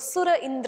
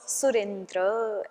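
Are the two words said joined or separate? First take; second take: separate; joined. First: The two words are said separately, without merging. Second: The two words are merged into one word. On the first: The speaker calls it wrong. "ऐसा नहीं बोल सकते" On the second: The speaker calls it right. "ऐसा ही बोलना पड़ेगा"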